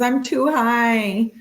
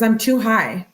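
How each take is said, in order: First: High, very slow stoned drawl. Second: Said in the usual way. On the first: Retold or imitated. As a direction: stretch it out like you're baked. Third time, drawn-out stoned voice. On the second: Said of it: "repeated text read again".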